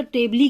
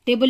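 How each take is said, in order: First: टेबली with the final e voiced as "lee"; wrong silent-e reading. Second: Said in the usual way. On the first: Shown as a demonstration. Teacher questioning the spelling, टेबली ending in a sounded "ee". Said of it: "टेबली क्यों नहीं बोलते हैं". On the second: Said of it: "टेबल लिखा है".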